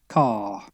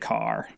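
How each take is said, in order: First: The final R is not pronounced. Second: The final R is strongly pronounced. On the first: "An English person would say" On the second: "really strong R at the end"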